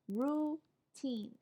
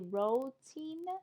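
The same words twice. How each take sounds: First: No extra 'o' vowel is sounded in the word. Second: An extra 'o' vowel is sounded in the word. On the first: The speaker calls it right. "It's just routine" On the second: The speaker calls it wrong. "the O is silent, so we don't pronounce, we don't say routine"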